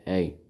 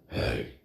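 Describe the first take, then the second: First: It is said in a normal voice. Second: It is said in a demonic voice.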